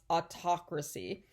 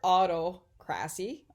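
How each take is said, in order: First: The main stress falls on the second syllable. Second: The main stress falls on the first syllable. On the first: The speaker calls it right. "It's pronounced autocracy" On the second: The speaker calls it wrong. "That's not how you pronounce it"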